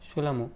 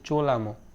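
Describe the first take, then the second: First: The word begins with an "s" sound. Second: The word begins with a "ch" sound. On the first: The speaker calls it right. "Actual যে প্রোনাউন্সিয়েশনটা সেটা আমরা বলবো কি সোলামো" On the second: The speaker calls it wrong. "অনেকেরই মনে হবে, ঠিক আছে, যে চোলামো"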